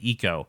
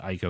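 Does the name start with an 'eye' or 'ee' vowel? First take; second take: ee; eye. First: The name begins with an 'ee' vowel. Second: The name begins with an 'eye' vowel. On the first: This follows Japanese pronunciation. "I's are pronounced E" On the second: This is the Americanized way of saying it. "very Americanized way of saying it"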